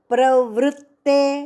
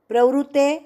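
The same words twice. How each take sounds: First: The t sound in the middle is doubled. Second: The t sound in the middle is single. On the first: The speaker calls it right. "डबल त है" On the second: The speaker calls it wrong. "प्रवृत्ते नहीं"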